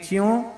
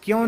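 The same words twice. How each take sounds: First: "च्यों" with ch for k; dialect pronunciation. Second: Said in the usual way. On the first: Shown as a demonstration. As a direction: say "च्यों" as chyon. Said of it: "कहें च्यों". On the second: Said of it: "क्यों नहीं कहें".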